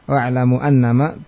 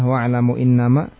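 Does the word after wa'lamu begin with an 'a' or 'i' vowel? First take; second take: a; i. First: The second word begins with an 'a' vowel. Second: The second word begins with an 'i' vowel. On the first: A predicate whose subject is omitted follows. "yang membaca hamzanya dengan fathah" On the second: The sentence is complete on its own. "dengan kasrah pada hamzah"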